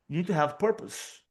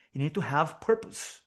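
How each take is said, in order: Both takes have the same delivery.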